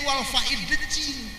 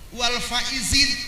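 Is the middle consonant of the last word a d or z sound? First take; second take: d sound; z sound. First: The last word has a d sound in the middle. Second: The last word has a z sound in the middle. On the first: The speaker calls it wrong. "lain wal faidin" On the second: The speaker calls it right. "Wal faizin lain wal faidin"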